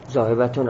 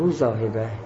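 First: The word ends with a final 'un' sound. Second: The word ends without the final 'un' sound. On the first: "زاهبتون هم میخونی" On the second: "ما آخرش رو ظاهر نمیکنیم"

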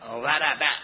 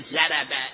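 First: The first consonant is an emphatic side-tongue dad. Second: The first consonant is a plain z sound. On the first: The speaker calls it right. "وات از مخرج، از بن تندان کرسی، واد پهلوی زبان" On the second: The speaker calls it wrong. "اگر وربه را مثل ما پیش عرب ها بگه، بگه زربه، این معنی بدی داره"

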